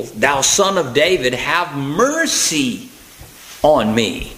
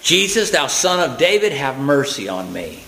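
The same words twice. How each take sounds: First: Drawn-out plea, stretching MERCY slowly; crying out more. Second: Mild plea, pitched up then falling away; crying out. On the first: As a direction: cry it out insistently, very slow towards the end. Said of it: "he cried the more a great deal". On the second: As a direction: read it as an understated cry for mercy. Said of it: "He began to cry out and say". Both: Acted.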